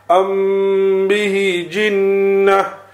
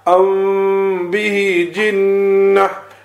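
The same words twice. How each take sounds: First: The m is pronounced fully with lips pressed together. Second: The m is hidden with lips only lightly touching. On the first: The speaker calls it wrong. "Now I'm going to read the ikhfa one incorrectly" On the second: The speaker calls it right. "Now read it correctly"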